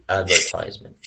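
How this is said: It is said with an American pronunciation. "American form is uh, advertisement"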